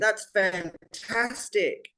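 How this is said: The voice sounds genuinely excited and lively. The speaker is truly happy for the person. The speaker calls it right. "that first one, I sounded actually excited for the person"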